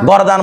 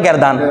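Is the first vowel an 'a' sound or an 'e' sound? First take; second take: a sound; e sound. First: The first vowel is an open a sound. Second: The first vowel is an e sound. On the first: "যেমন আমরা গরদান বলি" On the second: "অনেকে বলে গেরদান"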